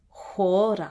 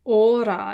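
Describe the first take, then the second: First: The word starts with a breathy h sound. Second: The word starts directly with the vowel. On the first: "since it is this word" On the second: "if it didn't have the rough breathing mark"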